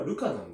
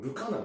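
First: ルカナン in the speaker's own accent pattern; own intonation. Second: ルカナン in the rival accent pattern; other people's intonation. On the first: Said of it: "俺はルカナンだと思ってた". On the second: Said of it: "て言ってる人たちもいて". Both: Shown as a demonstration.

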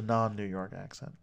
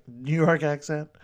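First: Said in the usual way. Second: Louder, higher New York accent. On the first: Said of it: "there's the non-New York accent". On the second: Shown as a demonstration. Host naming one of only two accents, New York accent. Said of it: "I'm doing the New York accent".

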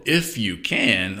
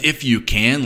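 First: Slow, gentle, playful smile in the voice; smile and twinkle. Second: Mildly affronted, slightly raised; mock angry challenge. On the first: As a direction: tease kindly, drawing the words out. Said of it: "said with a smile and a twinkle". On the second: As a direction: challenge the doubter with a touch of anger. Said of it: "said in an angry voice with angry eyes". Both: Shown as a demonstration.

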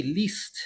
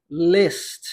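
First: "list" as "leest", a Portuguese-style I; "list" mispronounced with the "ee" of Portuguese "li". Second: "list" as "lest", with an open short vowel; "list" with the short English I, close to "le". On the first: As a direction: say "list" softly with a tight "ee" vowel. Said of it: "com som de i". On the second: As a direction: relax the I of "list" towards "eh". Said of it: "tem um som de E". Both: Shown as a demonstration.

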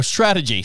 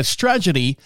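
First: Said in the usual way. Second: "strategy" stumbled into roughly "STRAJ-uh-dee"; mispronounced strategy. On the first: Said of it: "am I saying that right?". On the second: Real, not acted. Radio host misreading an article aloud, mispronounced "strategy". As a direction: garble "strategy", swapping its middle sounds. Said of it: "wrong emphasis on the wrong syllable".

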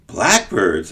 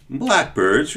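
First: Mild surprise on Blackbirds, falling; surprised echo. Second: Said in the usual way. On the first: Acted. Servant echoes the boy's answer, mildly surprised. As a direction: echo Blackbirds, a touch taken aback. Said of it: "echoed the servant in surprise". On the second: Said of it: "replied Gilligren".

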